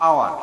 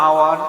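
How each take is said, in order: No difference in how they are said.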